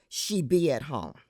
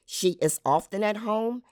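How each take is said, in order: First: She be at home; habitual be. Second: Said in the usual way. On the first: Shown as a demonstration. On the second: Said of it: "In mainstream American language".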